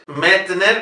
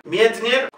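First: Metner with open Es, no "ye" glide; wrong plain E. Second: Mietner with gliding "mye" and "nyer"; higher, rising Mietner in Russian style. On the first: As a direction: mistaken radio version of Metner. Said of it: "como dicen en Radio Clásica". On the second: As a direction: model Mietner with both Es as "ye". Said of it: "se pronuncia Ye". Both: Shown as a demonstration.

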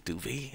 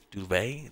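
First: "Duvey" said as "doo-vee", higher rising question; unsure pronunciation. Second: "Duvey" said as "doo-vay", rising question; unsure pronunciation. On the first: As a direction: try "Duvey" ending in "vee". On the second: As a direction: try "Duvey" ending in "vay". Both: Shown as a demonstration. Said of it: "I don't know".

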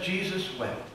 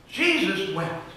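First: Soft, hushed "Jesus wept.". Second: Slow, drawn-out "Jesus wept.". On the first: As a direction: drop to a hush on "Jesus wept.". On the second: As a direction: let "Jesus wept." linger slowly. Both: Shown as a demonstration.

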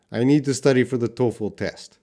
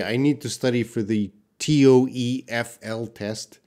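First: "toefl" as one word, TOE-ful. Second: "T O E F L" read as five separate letter names; spelled letter by letter. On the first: Teacher confirming the correct sentence, "toefl" said as one word. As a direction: run "toefl" together as a normal word. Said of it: "we say it as a new word". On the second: Teacher showing class the wrong way, "T O E F L" letter by letter. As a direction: spell out "T O E F L" inside the sentence. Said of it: "We don't say". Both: Shown as a demonstration.

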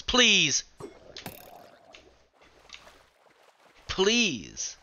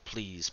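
First: High, loud begging cry; desperate pleading scream. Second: Said in the usual way. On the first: Real, not acted. Gamer about to die, desperate pleading scream. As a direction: plead for your life at the top of your lungs. Begging while under attack.

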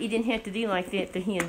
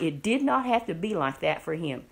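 First: Said in the usual way. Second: Firm weight on "not", falling at the end; stress on NOT. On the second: Real, not acted. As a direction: spell out "did not" and lean on NOT. Restates the same line emphatically.

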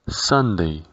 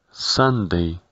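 Both takes have the same delivery.

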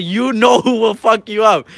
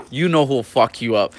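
First: Higher, slow teasing threat; drawn-out trash talk, pitched up; retold taunt. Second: Said in the usual way. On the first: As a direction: stretch it out to needle the rival.

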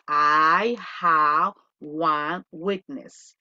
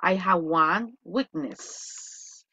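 First: "I have one weakness" again, very slowly with lowered pitch; second slow model, a bit lower; repeat slowly. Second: "I have one weakness" very slowly and clearly; teacher dictating the singular form slowly; model sentence. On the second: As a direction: say it slowly for repeating. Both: Shown as a demonstration. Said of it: "se dice".

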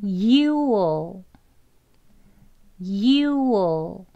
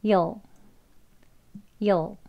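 First: YOU'LL stretched as "yoo-ol"; slow, drawn-out "You'll"; first, full contraction. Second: YOU'LL as one short syllable, "yol"; very short, compact "you'll"; further reduced. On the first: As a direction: model "You'll" long, oo kept before dark l. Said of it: "U에다가 그냥 어만 붙은 발음". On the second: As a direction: model "you'll" in a single quick beat. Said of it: "더 줄이면 이제 한 글자로". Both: Shown as a demonstration.

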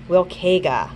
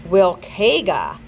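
First: Wilkega repeated with falling tune; repeated pronunciation. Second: Wilkega said slowly, stress on WIL; corrected pronunciation. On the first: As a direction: say Wilkega once more, clearly. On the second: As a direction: carefully sound out Wilkega. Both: Shown as a demonstration. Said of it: "Ah, it's".

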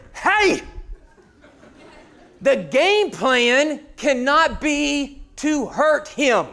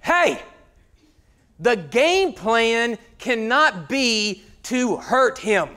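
First: Sharp high shout, then slow deliberate words. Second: Father calling out. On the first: Father yelling across the field, higher slow shout. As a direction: lose your cool, slowly. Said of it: "Ten minutes later". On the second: Father scolding players at son's game, slow stern call. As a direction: scold the field slowly. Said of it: "his father goes". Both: Retold or imitated.

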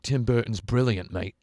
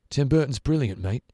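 First: Light imitated British accent. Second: Put-on higher British accent. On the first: Imagined British man praising Tim Burton, in a light British accent. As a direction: do a passing British bloke. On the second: Imagined British man repeating his praise, in a higher, louder British accent. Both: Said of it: "a British man, uh, being like".

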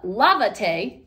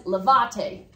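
First: Lavate with LA stressed and drawn out; stress on first syllable. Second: Lavate with the stress on VA; wrongly stressed lavate, leaning on the middle syllable; stress on second syllable. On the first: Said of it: "you can hear the word lava". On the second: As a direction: say lavate as la-VA-te, unaccented form. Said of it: "if I don't put an accent on here". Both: Shown as a demonstration.

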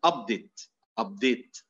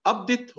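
First: Update stressed on UP, first syllable hit. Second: Update with DATE punched high, second syllable; stress on second syllable. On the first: Lecturer demonstrates the noun for students, first-syllable stress. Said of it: "هنا نبرنا على المقطع الأول بمعنى تحديث". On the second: Lecturer demonstrates the verb for students, stress on DATE. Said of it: "بمعنى يحدث". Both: Shown as a demonstration.

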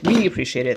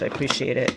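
First: "We" said louder than the rest; correcting to "We", pressing on it; stress on we. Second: Said in the usual way. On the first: Shown as a demonstration. Vlogger thanking the store for the channel, stress on "We".

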